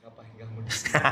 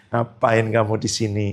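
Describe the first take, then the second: First: Hushed unvoiced whisper; whispered Holy Spirit voice. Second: Said in the usual way. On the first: Preacher voicing the Holy Spirit to Dimas, whispered. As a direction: breathe it like a secret nudge. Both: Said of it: "Di tempat parkir Roh Kudus bicara apa".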